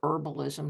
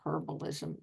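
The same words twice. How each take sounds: First: The word is said with an American pronunciation. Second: The word is said with a non-American pronunciation. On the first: "I'm an American, so I'll say herbalism" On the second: "not herbalism"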